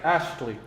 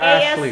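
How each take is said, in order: First: The name is said with a 't' sound. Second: The name is said without a 't' sound. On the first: The speaker calls it right. "His name is [name]" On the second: The speaker calls it wrong. "not Ashley"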